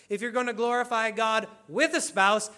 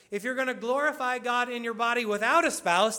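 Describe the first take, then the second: First: "with" picked out against "without"; stress on with. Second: "without" picked out, pitch rising; stress on without. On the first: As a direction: lean on the word "with". Contrasts with and without a spouse. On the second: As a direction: lean on the word "without". Contrasts without and with a spouse. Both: Shown as a demonstration.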